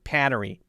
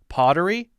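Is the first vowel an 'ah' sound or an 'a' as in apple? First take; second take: apple 'a'; ah. First: The first vowel is a nasal 'a' like apple. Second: The first vowel is an open 'ah' sound. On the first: "O's seem to be changed to A's" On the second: "an ah ah sound"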